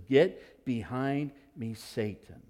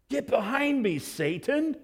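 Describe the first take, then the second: First: Slow, low stern rebuke; grave commanding rebuke; forceful rebuke. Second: High, sharp Get behind me, Satan; stunned sharp command; sharp rebuke. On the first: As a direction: put weight on GET. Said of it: "he answers pretty forcefully". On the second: Re-enacted rebuke. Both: Acted.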